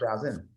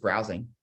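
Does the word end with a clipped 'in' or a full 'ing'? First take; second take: clipped; full. First: The word ends with a clipped 'in' sound. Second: The word ends with a full 'ing' sound. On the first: It sounds casual and natural. The speaker calls it right. "That's how I'd say it" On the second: It sounds scripted and formal. The speaker calls it wrong. "I don't say"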